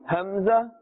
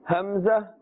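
Both takes have the same delivery.

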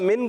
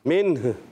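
First: The word ends without the final h sound. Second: The word ends with a final h sound. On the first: The speaker calls it wrong. "من کر کے چھوڑ دیں گے تو کیا ہوگا" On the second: The speaker calls it right. "آخر میں ہا کی ادائیگی"

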